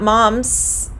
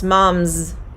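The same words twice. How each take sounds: First: The word ends with a hissing S sound. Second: The word ends with a buzzing Z sound. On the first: The speaker calls it wrong. "It's not moms" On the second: The speaker calls it right. "it's moms. There's a slight hint of a Z"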